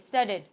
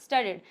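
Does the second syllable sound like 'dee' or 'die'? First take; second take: dee; dee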